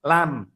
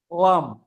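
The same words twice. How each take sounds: First: "lam" with a light Indonesian L; learner's faulty "lam", light first sound. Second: "Lam" begun with a dark, vowel-like L; low "Lam" with a heavy initial L. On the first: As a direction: say "lam" low, with a simple tongue-tip L. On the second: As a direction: say "Lam" starting from an ol sound, low. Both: Shown as a demonstration. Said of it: "bukan lam".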